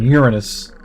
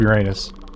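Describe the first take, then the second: First: The word is said in the refined way. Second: The word is said in the crude way.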